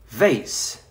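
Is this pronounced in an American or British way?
American. It is said with American pronunciation.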